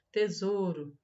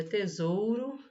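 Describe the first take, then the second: First: "tesouro" with a plain o, the u left out; u dropped. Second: "tesouro" with the full ou diphthong; u pronounced. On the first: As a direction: say "tesouro" without sounding the u. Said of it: "a gente às vezes não pronuncia". ("tesouro" sem pronunciar o u) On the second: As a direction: sound the u after the o in "tesouro". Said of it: "Mas é tesouro". ("tesouro" com o u pronunciado) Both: Shown as a demonstration.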